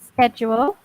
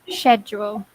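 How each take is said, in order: First: The word begins with an sk sound. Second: The word begins with an sh sound. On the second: "or sh"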